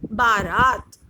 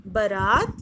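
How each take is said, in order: First: बारात with long first aa; बारात first syllable a long baa; correct spelling said. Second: बारात with short first vowel, like barat; बारात first syllable short a; wrong spelling said. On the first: (बारात पहला स्वर लंबा आ) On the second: (बारात पहला स्वर छोटा अ) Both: Shown as a demonstration. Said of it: "कुछ अशुद्ध शब्द हैं और कुछ शुद्ध शब्द हैं".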